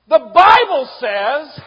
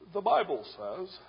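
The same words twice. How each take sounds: First: It is said loudly and with wild force. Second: It is said calmly and with restraint. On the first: "This wild lunatic of a man ... He was like this" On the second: "he's very dignified"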